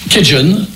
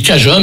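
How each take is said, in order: First: Cajun dit kɛʒɔn, à l'anglaise. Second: Cajun dit kaʒa, à la française. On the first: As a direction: prononcer Cajun comme kɛʒɔn, à l'américaine. (Cajun prononcé à l'anglaise) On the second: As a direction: prononcer Cajun comme kaʒa, nasal français. (Cajun prononcé à la française) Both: Shown as a demonstration. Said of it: "Moi, je dis Cajun".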